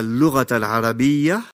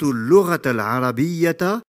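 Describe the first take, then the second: First: The last word ends in a soft h, no vowel. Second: The last word ends in t followed by a. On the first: The phrase ends here. "j'ai également remplacé la prononciation de la lettre ta marbuta par celle de la lettre ha" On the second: The sentence continues after it. "j'ai en revanche bien prononcé la lettre ta marbuta ainsi que la voyelle fatha"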